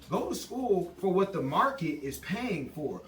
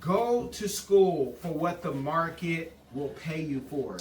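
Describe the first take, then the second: First: It is said at normal speed. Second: It is said slowly.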